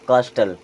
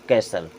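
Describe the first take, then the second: First: The t sound is pronounced in the middle. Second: The t sound is left out entirely. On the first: The speaker calls it wrong. "हो सकता है आपको लगता हो इसे हम क्या पढ़ेंगे?" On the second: The speaker calls it right. "लेकिन इसे हम क्या पढ़ते हैं?"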